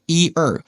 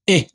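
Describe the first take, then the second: First: The syllables are drawn out fully. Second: The syllables are clipped very short. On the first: "It's it's supposed to be" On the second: "they say it very short"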